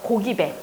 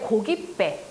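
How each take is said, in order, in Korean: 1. 마지막 음절은 예사소리로 시작해요. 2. 마지막 음절은 된소리로 시작해요.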